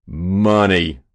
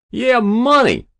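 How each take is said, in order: First: Louder but unraised shocked voice; choked exclamation. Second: Very high, loud, falling cry; greedy lout. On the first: State senator realising what is meant, choked. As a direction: exclaim it, appalled. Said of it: "exclaimed a state senator, choked pale". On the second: Hero confirming to the senator, greedily. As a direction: crow it brashly, pitched way up. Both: A narrator's reading.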